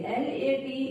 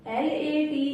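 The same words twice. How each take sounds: The two takes are said the same way.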